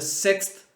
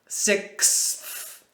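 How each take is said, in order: First: The th is nearly dropped, sounding like six. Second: The final th sound is clearly pronounced. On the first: "but say quickly, ... It kind of sounds just like six" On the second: "It should be sixth"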